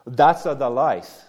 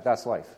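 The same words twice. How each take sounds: First: Put-on mother's slow, heavy Italian-accented English. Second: Said in the usual way. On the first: Preacher quoting his dear Italian mother, heavy Italian accent. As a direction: lightly imitate a mother's Italian accent, drawn out slowly. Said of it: "in her heavy Italian accent in English". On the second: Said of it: "I'll translate that".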